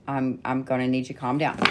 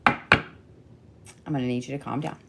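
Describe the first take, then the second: First: Said in the usual way. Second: Slow, deliberate, soft calm-down; slow soothing. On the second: Real, not acted. Reader slowly soothing overexcited Leos, firm and calm. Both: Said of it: "I told the Leos to calm down".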